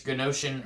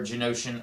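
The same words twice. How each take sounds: First: "Genosian" with a hard G, guh-NO-shun; hard-G pronunciation. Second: "Genosian" with a soft G, juh-NO-shun; soft-G pronunciation. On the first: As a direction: say "Genosian" starting like "gun". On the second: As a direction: say "Genosian" starting like "jump". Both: Shown as a demonstration. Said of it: "I don't know if it's pronounced".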